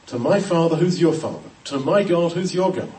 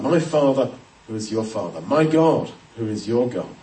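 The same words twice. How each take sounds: First: Said in the usual way. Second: "my" and "your" each given weight, "my Father who is your Father"; stress on my and your. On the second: Shown as a demonstration. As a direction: set "my" against "your" in every phrase. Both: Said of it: "is really emphasizing".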